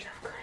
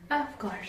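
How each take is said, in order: First: "of course" barely breathed, unvoiced and faint; whispered aside. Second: Said in the usual way. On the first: Real, not acted. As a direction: mutter "of course" under the breath. ("of course" फुसफुसाकर)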